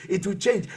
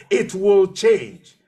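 First: Said in the usual way. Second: Louder, slow and emphatic mock yell; drawn-out, forceful imitation of screaming; retold scream. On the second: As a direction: retell your own insistent cry, stretching each word. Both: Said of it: "I was screaming on top of my voice".

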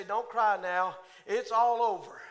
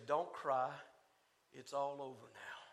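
First: Fuller voice, a touch louder and fervent; preached comfort. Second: Much softer, lower, tender reassurance; gentle comfort. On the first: Preacher proclaiming the King's comfort to the congregation, fervently. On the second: The King telling weeping saints don't cry, tenderly. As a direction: hush them like a comforting king. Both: Acted.

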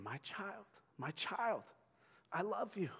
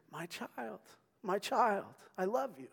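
First: Higher, quiet, tender; soft divine whisper. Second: Tender whisper. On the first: God to the church, a quiet tender voice. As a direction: say it softly like a loving father. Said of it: "He's saying". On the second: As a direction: whisper it lovingly like a father. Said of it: "cosmically whispering". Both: Pretend.

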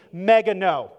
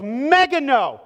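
First: "Mega no" punched louder with a falling close; emphatic no. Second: "mega no" louder and slow, stretched with weight; stronger emphatic no. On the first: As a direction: hit "Mega no" hard. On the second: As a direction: lean into "mega no", drawn out. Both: Shown as a demonstration. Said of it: "it's an emphatic phrase".

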